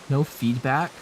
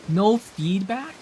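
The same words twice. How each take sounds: First: Said in the usual way. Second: Slow and higher, pleading; drawn-out mock plea; slow, drawn-out whine. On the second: Real, not acted. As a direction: stretch it out, begging for a reply.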